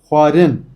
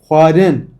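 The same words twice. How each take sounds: The two takes are said the same way.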